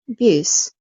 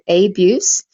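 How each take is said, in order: First: The first vowel is a short uh. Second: The first vowel is a full vowel. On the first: The speaker calls it right. "We go abuse" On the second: The speaker calls it wrong. "we don't go abuse"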